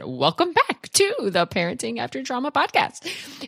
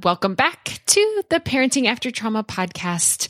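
First: It is said with exaggerated, absurd-sounding intonation. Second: It is said with plain, ordinary intonation.

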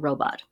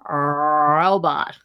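First: The first R is a clear, full R. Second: The first R is exaggerated and distorted. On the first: The speaker calls it right. "Say we're working on the R sound" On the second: The speaker calls it wrong. "distorting it by trying too hard. Robot. Kind of like that"

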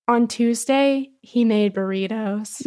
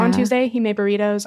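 First: It is said with marked, expressive feeling. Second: It is said flatly, with no particular feeling.

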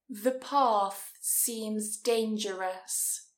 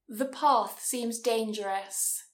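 First: It is said at a slower speed. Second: It is said at normal speed.

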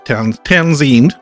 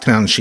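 First: The middle sound is a plain s. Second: The middle sound is sh. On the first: "It was a silent H, so Townsend" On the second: "but it's Townshend"

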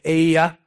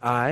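First: The name is said in a longer, intense way. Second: The name is said in a short, plain way. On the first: The speaker calls it wrong. "If you want to be really intense" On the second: The speaker calls it right. "That's a good way to pronounce it"

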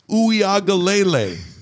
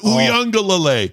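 First: Every vowel is pronounced with no added n. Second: An extra n sound is added inside. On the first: The speaker calls it right. "It's Uyagalele" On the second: The speaker calls it wrong. "It's not Uyunglele"

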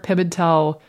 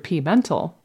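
First: The name begins with a short 'pim' syllable. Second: The name begins with a spelled letter 'P'. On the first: The speaker calls it right. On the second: The speaker calls it wrong.

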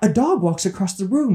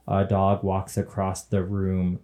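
First: The voice is highly expressive and animated. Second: The voice is flat and monotone. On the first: "someone that's like so expressive" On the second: "just a monotone audio description person"

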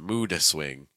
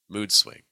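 First: The D is released with a small extra vowel. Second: The D is cut short before the next word. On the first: The speaker calls it wrong. "it feels like I'm adding like a schwa sound" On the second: The speaker calls it right. "mood will become mood"

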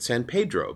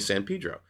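First: Pedro is said the way outsiders say it. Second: Pedro is said the way locals say it. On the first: The speaker calls it wrong. "some people pronounce it San Pedro" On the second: The speaker calls it right. "it's actually pronounced here in Southern California"

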